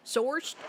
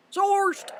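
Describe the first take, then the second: First: Said in the usual way. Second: High, loud exclamation of "Sourced"; playful shout. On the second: Pretend. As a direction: blurt "Sourced" out as a loud cry. Repeats the word as a shout.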